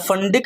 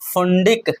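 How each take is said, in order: First: The first vowel sounds like 'uh'. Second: The first vowel sounds like 'oo'. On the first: "फंडिक भी पढ़ा जाता है इसको" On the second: "फुंडिक या फंडिक भी पढ़ा जाता है इसको"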